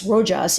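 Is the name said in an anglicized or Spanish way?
anglicized. The name is said with an anglicized pronunciation. This is how others commonly mispronounce the name. The speaker calls it wrong. "instead of"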